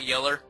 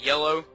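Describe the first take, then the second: First: The word ends in an er sound. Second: The word ends in an oh sound. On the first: This is how the speaker avoids saying it. The speaker calls it wrong. "and not yeller" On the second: This is how the speaker says it. The speaker calls it right. "I also say yellow"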